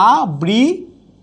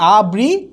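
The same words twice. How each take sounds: First: The consonant before the ri sound is doubled. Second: The consonant before the ri sound is single. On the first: The speaker calls it wrong. "যদি বলি আবৃত তাহলে হবে না" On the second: The speaker calls it right. "হবে কি আবৃত"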